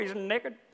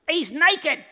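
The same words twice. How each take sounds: First: It is said in an Indian accent. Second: It is said in a British accent. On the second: "he said it in a British accent like that"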